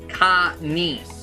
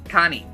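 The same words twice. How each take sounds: First: The syllables are said slowly and separately. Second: The syllables are run together quickly.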